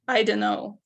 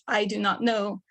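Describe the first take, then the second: First: "I don't know" blurred into "I d'n know"; reduced spoken form. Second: "I do not know" with every word separate and clear; full careful form. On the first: Teacher shows the everyday spoken form, relaxed. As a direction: let "I don't know" run together casually. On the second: Teacher shows the full grammatical form, carefully. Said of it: "teach the grammar of". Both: Shown as a demonstration.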